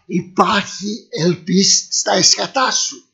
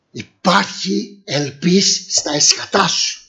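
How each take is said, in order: First: Slow repeat with weight on "εσχατά"; slow solemn repeat. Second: Slow, lower, drawn-out "ελπίς"; slow solemn promise. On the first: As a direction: lean on "εσχατά" and drag it out. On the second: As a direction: stretch "ελπίς" and let it rise. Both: Shown as a demonstration.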